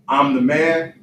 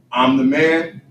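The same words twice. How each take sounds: The two takes are said the same way.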